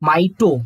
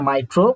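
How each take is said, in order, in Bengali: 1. দ্বিতীয় সিলেবলে r-এর উচ্চারণ নেই: to। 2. দ্বিতীয় সিলেবলে r-এর উচ্চারণ আছে: tro। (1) "মাইটোকন্ড্রিয়া" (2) "মাইট্রো না"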